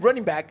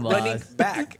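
First: The two words run together quickly as one. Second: The two words are said slowly and apart. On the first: It is treated as a single word. "You've been saying running back" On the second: It is treated as two words. "not running back"

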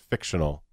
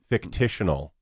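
First: The word has no extra syllable. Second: The word has an extra 'ti' syllable. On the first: The speaker calls it right. "That's fictional" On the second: The speaker calls it wrong. "There's another word you say wrong"

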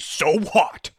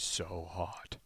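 First: The voice is pitched higher. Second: The voice is pitched very low. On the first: This is how the character sounded in later seasons. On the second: This is how the character sounded early on.

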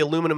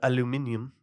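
First: It is said the American way, four syllables. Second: It is said the British way, five syllables.

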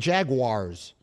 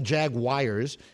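First: The second syllable does not sound like 'wires'. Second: The second syllable sounds like 'wires'. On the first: The speaker calls it right. "see, it's the Jaguars" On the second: The speaker calls it wrong. "It's not the Jaguars. It's not spelled like it was J-A-G-W-I-R-E-S"

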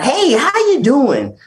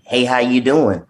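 First: It is said in an overdone, exaggerated way. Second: It is said in a simple, natural way.

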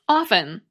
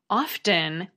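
First: The word is said without a T sound. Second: The word is said with a T sound. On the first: "like off, with a little syllabic N at the end ... with a silent T" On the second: "the pronunciation with the T"

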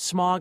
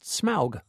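First: It sounds just like the word smog. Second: Its vowel differs from the word smog. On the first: The speaker calls it wrong. "I always thought it was pronounced smog, like the Los Angeles pollution" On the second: The speaker calls it right. "but it's not. It's pronounced Smaug"

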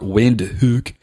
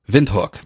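First: The name is pronounced as read in English. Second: The name is pronounced the local, non-English way.

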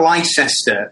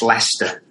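First: The word is said the way it is spelled. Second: The word is said in its shortened form. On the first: The speaker calls it wrong. "spelled Leicester" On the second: The speaker calls it right. "but it's pronounced Leicester"

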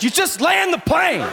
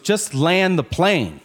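First: It is said in an aggressive tone. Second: It is said in a calmer tone.

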